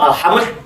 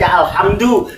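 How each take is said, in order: First: The word ends with no final vowel. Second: The word ends with an u vowel. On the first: The speaker calls it wrong. "tidak mungkin dibaca" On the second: The speaker calls it right. "wajib dibacanya dengan doma"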